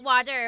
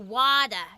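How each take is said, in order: First: The word is said in a standard accent. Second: The word is said in a Boston accent. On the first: The speaker calls it wrong. "not water" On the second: The speaker calls it right. "You should have said it with like a Boston accent"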